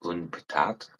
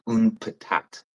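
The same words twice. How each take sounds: First: "Une patate?" repeated softer with a puzzled rising tune; mock disbelief. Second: "une patate" said slowly the Québécois way; Quebec French. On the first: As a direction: echo "Une patate?" quietly, baffled, rising at the end. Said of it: "Why don't you just fucking say potato". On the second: Shown as a demonstration. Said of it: "They say une patate".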